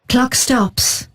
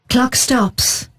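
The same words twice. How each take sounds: The two takes are said the same way.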